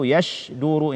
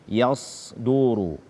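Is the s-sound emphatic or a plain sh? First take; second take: plain sh; emphatic. First: The middle consonant is a plain sh sound. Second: The middle consonant is a heavy emphatic s. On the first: The speaker calls it wrong. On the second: The speaker calls it right.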